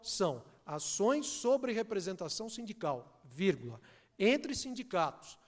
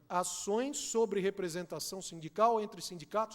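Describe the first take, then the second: First: There is a break after sindical. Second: It runs on without a pause after sindical.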